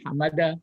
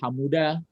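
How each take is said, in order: First: The vowel after the m is a. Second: The vowel after the m is u. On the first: "dibaca bukan hamada" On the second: "bukan dibaca hamuda"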